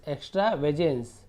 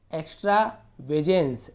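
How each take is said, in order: First: Said in the usual way. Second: एक्स्ट्रावेजेंस split as "ekstra - vejens"; slow two-chunk reading of एक्स्ट्रावेजेंस; broken into parts. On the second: Shown as a demonstration. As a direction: gap after "ekstra" in एक्स्ट्रावेजेंस. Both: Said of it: "ऐसे तोड़ तोड़ के पढ़ना है".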